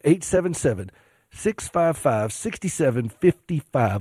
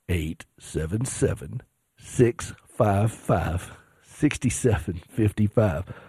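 First: It is said at a quicker pace. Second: It is said at a slower pace.

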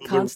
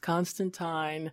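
First: The name is said the screen way. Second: The name is said the comic-book way. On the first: This is the pronunciation popularized by the adaptation. The speaker calls it wrong. "as soon as he showed up on TV, actually, you know, it became Constantine" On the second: This is the original intended pronunciation. The speaker calls it right. "It was always specified that it was Constantine"

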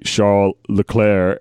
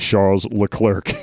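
First: The name is said with a French pronunciation. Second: The name is said with an English pronunciation. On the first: "French people call me Charles Leclerc" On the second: "English people tend to call me Charles Leclerc"

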